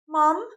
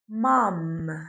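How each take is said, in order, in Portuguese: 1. A palavra termina nasal sem fechar os lábios. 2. Os lábios se fecham completamente para o M final. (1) "Ele pega o som que ele já conhece e ele faz igual" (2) "Eu juntei os meus lábios"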